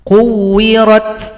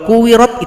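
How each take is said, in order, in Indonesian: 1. Huruf ta di akhir diakhiri dengan bunyi nafas yang terdengar. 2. Huruf ta di akhir tidak ada bunyi nafas yang terdengar. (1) "Ta ini ada bunyi nafas atau bunyi hamas" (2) "Kalau kuwirat itu kurang tepat"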